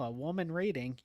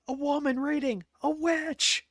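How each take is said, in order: First: Said in the usual way. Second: High, loud cry of accusation; mock distant shout. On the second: Imitating someone shouting at a Renaissance fair, mock alarm. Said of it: "you hear someone in the distance shout".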